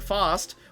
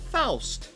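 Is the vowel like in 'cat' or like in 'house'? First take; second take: cat; house. First: The vowel is a flat 'a' as in cat. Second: The vowel is an 'ow' sound as in house. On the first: The speaker calls it wrong. "instead of saying fast, which I always do and always did" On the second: The speaker calls it right. "I attempt to say Faust"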